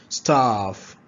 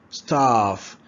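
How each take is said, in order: The two takes are said the same way.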